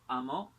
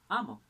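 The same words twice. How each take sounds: First: Amó said a-MÓ; stress on last syllable. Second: Amo said A-mo, louder A; stress on first syllable. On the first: Teacher contrasting word stress, amó stressed on MÓ. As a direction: land amó on its final syllable. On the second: Teacher contrasting word stress, amo stressed on A. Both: Shown as a demonstration. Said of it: "el acento puede variar".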